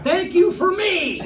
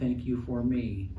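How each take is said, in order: First: It is said in a loud, excited way. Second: It is said in a calm, plain way.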